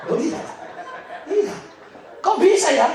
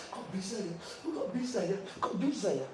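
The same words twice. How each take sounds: First: "Kok bisa ya" called out much higher and louder; loud amazement. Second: "Kok bisa ya" murmured much softer, in awe; hushed wonder. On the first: Real, not acted. Preacher marvelling at God's provision to the congregation, loud and high. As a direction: throw "Kok bisa ya" out to the hall in delight. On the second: Retold or imitated. Wife whispering her amazement on the plane, hushed and awed. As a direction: repeat "Kok bisa ya" under the breath, marvelling.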